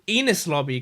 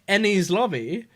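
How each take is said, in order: First: The first word is said like 'Enos'. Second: The first word is said like 'Ennie's'. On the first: The speaker calls it wrong. "But then I went to pronouncing it Enos lobby constantly" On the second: The speaker calls it right. "I think it is supposed to be pronounced Ennie's lobby"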